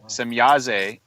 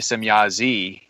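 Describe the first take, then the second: First: The name ends with an 'ah' vowel sound. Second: The name ends with an 'ee' vowel sound. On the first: This is the name as originally meant. The speaker calls it right. "is how her name was pronounced" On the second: This carries a different, more negative meaning. The speaker calls it wrong. "if it's pronounced e at the end of her name instead of a"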